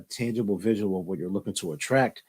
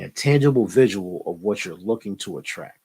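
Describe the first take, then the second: First: The phrase is spoken quickly. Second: The phrase is spoken slowly. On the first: "I know I talk fast" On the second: "let me say that slower"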